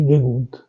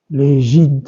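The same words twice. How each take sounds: First: Legunt with an u sound before the final nt; correct form. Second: Legint with an i sound before the final nt; wrong form. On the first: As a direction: say legunt as the right ending. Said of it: "on dit". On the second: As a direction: say legint as the mistaken ending. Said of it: "On ne dit pas". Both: Shown as a demonstration.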